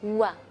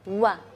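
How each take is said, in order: The two takes are said the same way.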